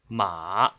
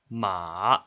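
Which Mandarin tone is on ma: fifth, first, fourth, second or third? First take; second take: third; third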